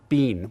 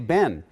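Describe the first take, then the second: First: It is said the British and Canadian way. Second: It is said the Boston way.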